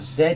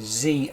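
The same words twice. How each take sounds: First: The letter is said the British way, zed. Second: The letter is said the American way, zee.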